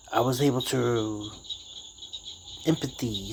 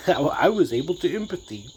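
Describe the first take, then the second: First: Said in the usual way. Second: Laughing retake of his own slip; laughing at own word. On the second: Shown as a demonstration. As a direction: repeat it through a laugh, amused at the mistake.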